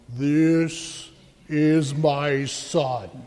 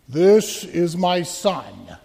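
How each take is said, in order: First: It is said very slowly. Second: It is said at normal speed.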